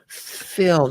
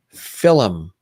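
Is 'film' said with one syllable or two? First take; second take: one; two. First: It is said smoothly as one syllable. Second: It is said with two syllables, Irish-style.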